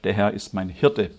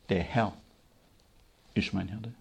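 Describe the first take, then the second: First: The stress falls on the word Hirte. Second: The stress falls on the word Herr. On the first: The focus is on being cared for and provided for. The speaker calls it wrong. "Die Betonung liegt heute darauf, ... Er soll mich versorgen" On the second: The focus is on being the ruling lord first. The speaker calls it right. "Nein, die Betonung liegt darauf, ... Er ist zuerst Herr"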